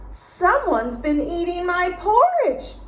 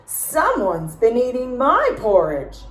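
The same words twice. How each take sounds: First: High, loud mock shriek; Mama Bear raising the alarm, high. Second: Papa Bear bellowing over his bowl; Papa Bear yelling. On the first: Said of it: "she shrieked". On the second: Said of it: "Papa Bear yelled". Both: A narrator's reading.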